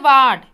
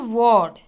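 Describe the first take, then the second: First: The vowel sounds like the vowel in card. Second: The vowel is an O sound, not card's. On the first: The speaker calls it wrong. "Card, we don't say ward" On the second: The speaker calls it right. "we say ward. R is silent and A becomes O pronunciation"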